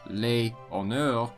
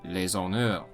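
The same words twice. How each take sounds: First: The s of les is silent, not linked. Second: The s of les links into honneurs. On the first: The speaker calls it wrong. "instead of" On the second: The speaker calls it right. "the end consonant of the previous word does tend to be pronounced"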